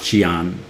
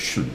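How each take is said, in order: First: The ending is two syllables, "see-an". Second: The ending is one syllable, "shun". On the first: The speaker calls it wrong. "not Xian" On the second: The speaker calls it right. "everything's pronounced as shun"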